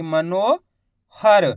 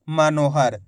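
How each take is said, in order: First: मनोहर very slow, मनो held apart from हर; split into parts. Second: Said in the usual way. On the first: Shown as a demonstration. Teacher dictating for spelling, मनोहर split. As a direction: stretch मनो, pause, then हर. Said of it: "मनो जैसे ही बोलेंगे". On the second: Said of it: "तो मिलके बन जाएगा".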